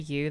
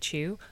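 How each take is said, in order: First: The word begins with a clear 'y' sound. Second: The word begins with a 'ch' sound. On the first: The speaker calls it right. "they don't say you" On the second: The speaker calls it wrong. "they say chew"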